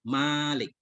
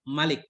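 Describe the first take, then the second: First: The first vowel is drawn out long. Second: The first vowel is kept short. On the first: It means the owner of everything. "Malik itu yang memiliki segala urusan" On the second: It means the king who rules. "bihadzfil alif, dengan dibuang alif"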